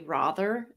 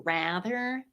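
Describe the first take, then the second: First: It is said with a British-sounding vowel. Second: It is said with an American-sounding vowel. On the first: "I say rather" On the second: "as opposed to rather"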